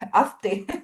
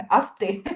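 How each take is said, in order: First: The s sound before the t is pronounced. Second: The s sound before the t is pronounced.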